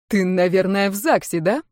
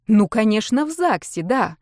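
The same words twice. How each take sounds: First: Understated hurt question; offended. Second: Sarcastic. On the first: Husband asks his ex-wife, mildly offended. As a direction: sulk it slightly, wounded. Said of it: "обиженно спросил он у бывшей". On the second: Ex-wife answers the husband, sarcastic. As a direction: echo him with biting sarcasm. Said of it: "язвительно ответила та". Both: A narrator's reading.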